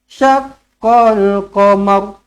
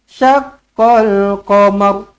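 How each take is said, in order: The two takes are said the same way.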